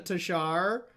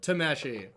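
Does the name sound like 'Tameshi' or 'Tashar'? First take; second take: Tashar; Tameshi. First: The name is said roughly as 'Tashar'. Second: The name is said roughly as 'Tameshi'. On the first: The speaker calls it wrong. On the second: The speaker calls it right.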